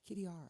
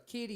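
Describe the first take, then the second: First: It is said with a smooth, elegant flair. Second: It is said with a broad country twang. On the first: The speaker calls it right. "you gotta get that little swag in there... get that elegance in there" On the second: The speaker calls it wrong. "you can't go Kitty You can't you gotta get rid of the country train"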